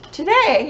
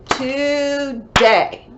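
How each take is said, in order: First: Said in the usual way. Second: "Today" split into two long, loud beats; syllable by syllable. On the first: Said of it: "Today has two syllables". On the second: Shown as a demonstration. Teacher showing pupils which word has two syllables, "Today" broken in two. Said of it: "two syllables that we clap".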